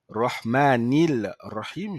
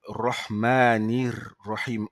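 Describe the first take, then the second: First: An L sound is pronounced before Rahim. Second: The sound links straight into a doubled R. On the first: The speaker calls it wrong. "je ne vais pas dire Rahmanil Rahim" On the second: The speaker calls it right. "je dirais directement Rahmanir Rahim en liant le ni qui est là avec le ra"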